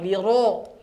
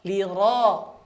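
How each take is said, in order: First: The ro is said with rounded, pushed-out lips. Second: The ro is said without rounded lips. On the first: The speaker calls it wrong. "Ini keliru" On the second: The speaker calls it right. "jangan sampai monyong"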